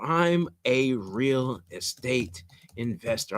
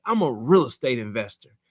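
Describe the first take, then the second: First: Slow and soft, as if typing each word; slow dictation. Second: Said in the usual way. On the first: Shown as a demonstration. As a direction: spell it out slowly while typing. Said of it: "I'm typing it out now". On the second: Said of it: "You gotta have some swag".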